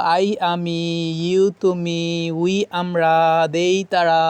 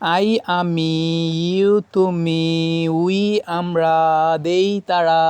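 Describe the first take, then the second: Both takes have the same delivery.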